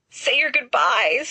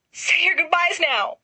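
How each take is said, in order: First: Slow, drawn-out moan. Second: Much higher, theatrical wail; "your" pitched up high and wailed; higher wailing moan. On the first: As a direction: groan it out like a doomed man. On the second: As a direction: Sirius wailing as the armor moves. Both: A narrator's reading. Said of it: "Sirius moans".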